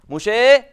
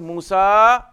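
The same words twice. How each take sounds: First: The final vowel leans toward an 'e' sound. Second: The final vowel is a plain open 'a'. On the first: "what that is called imala. Imala literally swerving to one side" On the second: "Instead of Musa"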